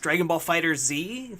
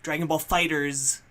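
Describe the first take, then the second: First: The name ends with a separate letter Z sound. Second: The name ends with a plain plural s sound. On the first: The speaker calls it wrong. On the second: The speaker calls it right. "officially it is Fighters"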